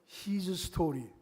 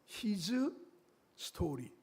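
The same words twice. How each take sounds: First: It is said quickly, running together like 'history'. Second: It is said slowly as two separate words.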